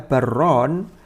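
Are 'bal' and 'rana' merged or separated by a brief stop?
merged. The two words run together with the l absorbed. It could be heard as meaning 'two lands'. The speaker calls it wrong. "kalau dibaca barron"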